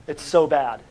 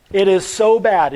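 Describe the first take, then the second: First: Said in the usual way. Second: "so" leaned on, louder and slower; emphatic repeat. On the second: Shown as a demonstration. Teacher stressing the point to the class, louder "so". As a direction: hit "so" hard and slow it down.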